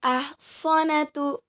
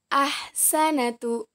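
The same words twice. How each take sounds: First: Ahsanatu slowly, middle syllable heavy "so"; letter sad. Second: Ahsanatu slowly, middle syllable light "sa"; letter sin. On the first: Teacher contrasts two letters for students, Ahsanatu with heavy "so". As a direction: say Ahsanatu as "ahsonatu". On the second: Teacher contrasts two letters for students, ahsanatu with light "sa". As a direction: say ahsanatu with thin S, open vowel. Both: Shown as a demonstration. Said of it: "Perbandingan antara huruf so dan huruf sa".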